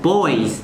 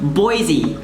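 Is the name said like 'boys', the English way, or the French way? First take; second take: boys; English. First: It sounds like the one-syllable word 'boys'. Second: It is said with the English pronunciation. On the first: A naive reading from the spelling. The speaker calls it wrong. "if I see this with my English mind, I'd be like, oh" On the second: How locals really say it. The speaker calls it right. "it's actually just pronounced"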